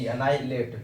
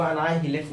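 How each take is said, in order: First: एनाहिलेट said a-nai-let, the h left silent. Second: एनाहिलेट said wrongly as a-na-hi-let, with the h sounded; wrong pronunciation with h. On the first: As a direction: say एनाहिलेट correctly with no h sound. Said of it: "एच को silent करके pronounce करेंगे". (एनाहिलेट को एच silent रखकर सही बोलें) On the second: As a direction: read एनाहिलेट sounding the h, the way not to say it. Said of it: "इसको एनाहिलेट नहीं पढ़ेंगे". (एनाहिलेट को गलत तरीके से, h बोलकर पढ़ें) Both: Shown as a demonstration.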